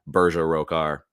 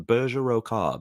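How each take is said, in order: First: Plain American accent with a hard final r. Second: British accent. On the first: Streamer showing the name as gibberish, American accent. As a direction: lower American accent, r's pronounced. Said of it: "say it in just an American accent". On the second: Streamer trying out a new name, British accent. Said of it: "when you say that in a British accent". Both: Shown as a demonstration.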